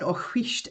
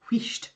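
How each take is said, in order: First: "wheesht" with a breathy hw and a long ee; Scottish wheesht. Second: "wheesht" said plainly as one short word, wiisht; just sound out "wheesht" clearly; Scottish word demo. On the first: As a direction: say "Oh, wheesht" as a Scot hushing someone. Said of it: "I have to teach you the word wheesht". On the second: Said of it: "And then S H T, wheesht". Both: Shown as a demonstration.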